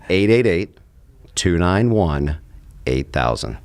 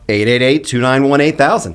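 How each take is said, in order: First: The number is said slowly. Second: The number is said quickly.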